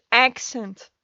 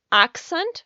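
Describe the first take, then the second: First: "accent" as "AK-sent", A as in cat; first pronunciation of accent. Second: "accent" as "AHK-sent", broad open A; alternative pronunciation of accent. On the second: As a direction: open up the first vowel of "accent" to "ah". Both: Shown as a demonstration. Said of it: "why do I say it differently".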